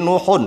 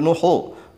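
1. Kata itu diakhiri bunyi n tambahan. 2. Kata itu diakhiri vokal biasa. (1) "berarti nuhun ditanwin" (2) "nggak boleh nuhu"

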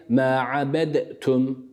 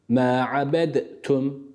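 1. Dal harfi, kendisinden sonra gelen t harfinden önce ayrı olarak telaffuz edilir. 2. Dal harfi, kendisinden sonra gelen t harfinden önce ayrı olarak telaffuz edilir.

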